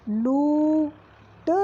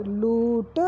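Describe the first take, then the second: First: लूट with a very slow long ऊ; slow drawn. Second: लूट short and plain; quick repeat. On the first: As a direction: stretch लूट out. (लूट को खींचकर) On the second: (लूट जल्दी दोहराना) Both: Shown as a demonstration. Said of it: "मात्रा".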